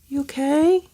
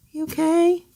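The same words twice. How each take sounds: The two takes are said the same way.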